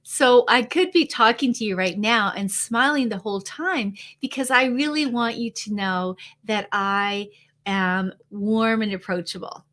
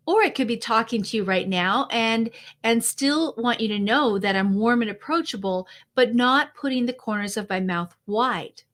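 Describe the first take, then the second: First: Wide-mouthed smiling voice, brighter; smiling while talking. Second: Said in the usual way. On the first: Shown as a demonstration. Coach demos talking to the audience with a constant smile. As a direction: keep the mouth in a wide smile the whole time. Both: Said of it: "say it in two different ways".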